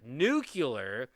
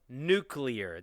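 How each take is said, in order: First: The word is said as nu-cu-lar. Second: The word is said as nu-clee-ar. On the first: "N U C U L A R" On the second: "That is N U C L E A R"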